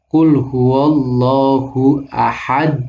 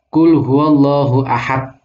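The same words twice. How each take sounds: First: The final d bounces with a slight echo. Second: The final d stops flat without bouncing. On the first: The speaker calls it right. "dal ketika disukun dia mantul" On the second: The speaker calls it wrong. "Itu salah, nggak ada kolkolah"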